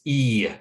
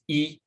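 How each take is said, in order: First: The vowel ends with a glide toward Y. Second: The vowel stays steady with no glide. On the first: The speaker calls it right. "we add kind of a Y sound to the end of it" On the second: The speaker calls it wrong. "it's not just E"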